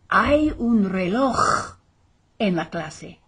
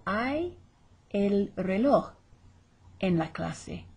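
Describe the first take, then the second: First: Slow, loud "reloj" with an overdone rasping j; exaggerated throat J. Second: "reloj" with the final j almost dropped; barely heard J. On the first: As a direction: hammer out "reloj" with a big throat scrape, then drop back. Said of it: "they're not gonna be saying that". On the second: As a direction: say "reloj" easily, only a faint breath for the j. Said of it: "you're barely gonna hear the J". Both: Shown as a demonstration.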